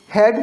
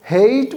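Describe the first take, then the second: First: हैट with a short, open "a"; teacher's short-vowel demo of हैट; short A sound. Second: हेट with a drawn-out "ay"; teacher's long-vowel demo of हेट; long A sound. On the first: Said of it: "ए की sound ए आती है". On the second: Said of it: "तो sound लंबी हो जाती है". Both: Shown as a demonstration.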